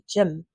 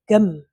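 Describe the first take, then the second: First: The word begins with a soft J-like sound. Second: The word begins with a hard G sound. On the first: The speaker calls it right. "it's actually a soft G" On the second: The speaker calls it wrong. "they use the, the hard G"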